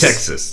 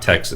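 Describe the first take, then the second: First: The word is drawled in a southern Texan accent. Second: The word is said in a plain, neutral accent. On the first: The speaker calls it right. "you say Tex-" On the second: The speaker calls it wrong. "not Texas"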